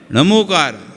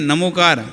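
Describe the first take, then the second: First: नमोकार with a retroflex ṇ at the start. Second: नमोकार with a plain dental n. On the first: Teacher showing his own tradition's reading, retroflex ṇa. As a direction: say नमोकार starting on a retroflex ṇa, tongue curled back. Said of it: "और हमारे यहाँ". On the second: Teacher showing the other tradition's reading, dental na. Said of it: "उनके यहाँ नमोकार". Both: Shown as a demonstration.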